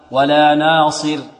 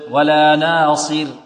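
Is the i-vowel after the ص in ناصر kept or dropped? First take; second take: kept; kept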